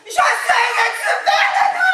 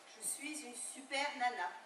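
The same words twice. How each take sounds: First: It is said very loudly. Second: It is said at a softer volume.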